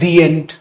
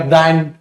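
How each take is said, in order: First: The word 'the' is said with a long 'thee'. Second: The word 'the' is said with a short 'thuh'. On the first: The speaker calls it right. "तो यहां बोल देते दी and" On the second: The speaker calls it wrong. "द और आ mix हो रहा है"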